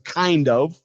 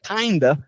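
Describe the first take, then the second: First: The word 'of' is pronounced in full. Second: The word 'of' is reduced to a short vowel. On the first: "natives would go with a kind of" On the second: "which ends up sounding like kinda"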